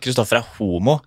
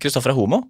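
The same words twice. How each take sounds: First: The word homo gets heavy emphasis. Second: The word homo flows without special emphasis. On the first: The label sounds like an insult. The speaker calls it wrong. "det litt på trykket på ordet da. For da sa du" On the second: The label sounds like a neutral description. The speaker calls it right. "bare litt sånn flyt i ordet"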